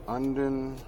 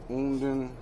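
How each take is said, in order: Both takes have the same delivery.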